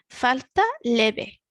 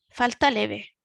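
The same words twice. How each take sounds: First: The phrase is said slowly. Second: The phrase is said at normal speed. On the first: "the first one a little bit slower" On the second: "the second one normal speaking speed"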